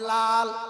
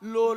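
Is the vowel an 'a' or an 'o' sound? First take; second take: a; o. First: The vowel is an open 'a' sound. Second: The vowel is a rounded 'o' sound. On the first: The speaker calls it right. "আপনারা সবাই লাল বলেন" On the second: The speaker calls it wrong. "লোল না"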